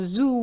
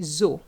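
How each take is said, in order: First: The vowel is an 'oo' sound. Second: The vowel is an 'oh' sound. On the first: The speaker calls it wrong. "we're not going to say zoo because zoo would be Z O U" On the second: The speaker calls it right. "We're going to say zoo"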